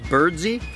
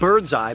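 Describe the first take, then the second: First: The name ends with an 'ee' sound. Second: The name ends with an 'eye' sound. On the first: The speaker calls it right. "apparently was pronounced Birdsey" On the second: The speaker calls it wrong. "it looks like Birdseye"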